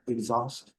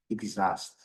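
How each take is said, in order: First: "Exhaust" with a closed, British vowel; British "Exhaust" demo; British pronunciation. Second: "exhaust" with an open, American vowel; American "exhaust" demo; American pronunciation. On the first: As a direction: say "Exhaust" as /ekzɔst/, rounded. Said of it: "No inglês britânico um pouquinho mais fechado". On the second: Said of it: "no inglês americano um pouquinho mais aberto". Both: Shown as a demonstration.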